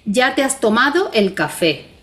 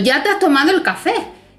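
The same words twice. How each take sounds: First: It is said as a plain flat statement. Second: It is said as an emphatic exclamation. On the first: "si yo digo enunciativamente" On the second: "le pongo dos signos de admiración, te estoy diciendo"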